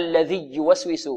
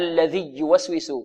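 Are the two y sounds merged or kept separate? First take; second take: merged; merged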